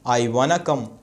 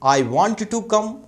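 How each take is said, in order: First: Want and to blend into one word, wanna. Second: Want and to are said as separate words. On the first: "आई वाना गो भी कह सकते हैं" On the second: "I वॉन्ट टू go"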